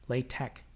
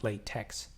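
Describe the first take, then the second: First: The word ends with a plain 'k' sound. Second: The word ends with a 'ks' sound. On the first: The speaker calls it right. "latex, not latex" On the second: The speaker calls it wrong. "not latex"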